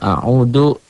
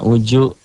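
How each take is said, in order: First: The middle consonant sounds like d. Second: The middle consonant sounds like j. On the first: "ada juga bilang a'udu, bukan" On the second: "Ada ada orang yang baca a'uju"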